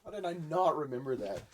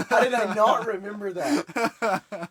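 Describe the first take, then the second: First: Said in the usual way. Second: Slow, laughing disbelief. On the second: Real, not acted. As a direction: laugh through the question. Repeats question, second laughing.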